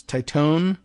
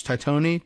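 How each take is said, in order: First: "Titone" as tie-TONE, rising; questioning "Titone", two syllables, tie-TONE; tentative pronunciation. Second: "Titone" as tie-TOE-nee, rising; questioning "Titone", three syllables, tie-TOE-nee; alternative pronunciation. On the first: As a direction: try "Titone" with a silent final E. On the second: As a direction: try "Titone" with the final E sounded. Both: Shown as a demonstration. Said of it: "how does she pronounce this?".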